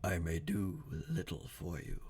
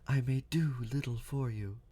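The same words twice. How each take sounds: First: It is spoken in a masculine voice. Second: It is spoken in a feminine voice. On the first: The speaker calls it wrong. "that was a masculine voice" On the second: The speaker calls it right. "it's a feminine voice"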